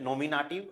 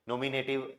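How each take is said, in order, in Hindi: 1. तीसरे अक्षर में 'ah' स्वर है। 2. तीसरे अक्षर में 'ay' स्वर है। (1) "अभी इनको हमें जर्मन में यूज करना है" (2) "इंग्लिश की अगर बात करें ... लोग बाग ऐसे बोल देंगे"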